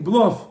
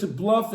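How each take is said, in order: First: "bluff" said the Hebrew way, with a rounder vowel; Israeli pronunciation. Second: Said in the usual way. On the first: Shown as a demonstration. Showing listeners the Ivrit word, "bluff" in Israeli pronunciation. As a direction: say "bluff" as Israelis do, nearer "bloff". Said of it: "In Ivrit, they say the same thing". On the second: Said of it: "you say in English".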